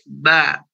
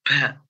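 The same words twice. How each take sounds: First: It is said without escaping breath. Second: It is said with breath escaping. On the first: The speaker calls it right. "Yang betul adalah huruf ba itu jahar, tidak ada na, nafas" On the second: The speaker calls it wrong. "Ada nafasnya ya. Itu keliru"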